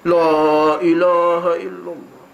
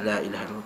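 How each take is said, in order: First: The phrase is shouted very loudly. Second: The phrase is said softly and gently. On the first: The speaker calls it wrong. "terjerit kuat-kuat tu" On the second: The speaker calls it right.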